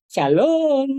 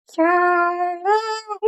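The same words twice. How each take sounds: First: Said in the usual way. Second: High, slow little "Shalom"; the puppet tries the word; small puppet voice. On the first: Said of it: "Coba bilang". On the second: Shown as a demonstration. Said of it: "suara boneka". ("Shalom" dengan suara boneka kecil)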